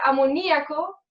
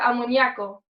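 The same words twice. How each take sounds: First: The middle vowels are in separate syllables. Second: The middle vowels merge into one syllable. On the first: "en vez de amoníaco" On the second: "Se juntan las vocales"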